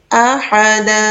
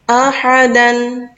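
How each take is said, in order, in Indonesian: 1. Kata itu berakhir dengan vokal yang ditahan dua ketukan. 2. Kata itu berakhir dengan vokal pendek ditambah n.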